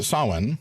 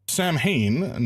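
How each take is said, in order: First: The word is said with its approximate Gaelic sounds. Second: The word is read out as English spelling suggests. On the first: The speaker calls it right. "approximately pronounced Samhain" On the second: The speaker calls it wrong. "not pronounced like that"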